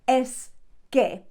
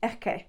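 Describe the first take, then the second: First: Both words are said fully and separately. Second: The words are shortened and joined with a throat sound. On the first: "you wouldn't say es que" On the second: "make it a bit shorter and you might join it together"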